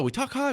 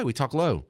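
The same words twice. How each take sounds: First: Much higher, lighter pitch on "high"; talking high. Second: "low" dropped down in pitch; talking low. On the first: Host showing normal inflection, talking high. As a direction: lift the voice way up for "high". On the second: Host showing normal inflection, talking low. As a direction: drop the voice down for "low". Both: Shown as a demonstration.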